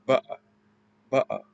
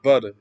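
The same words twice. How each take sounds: First: "ba'a" with a glottal stop for the T; Cockney "ba'a", a catch in the middle; dropped T. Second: Said in the usual way. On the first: Shown as a demonstration. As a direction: swallow the T in "ba'a". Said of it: "Instead of butter, it'd be". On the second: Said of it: "Instead of butter".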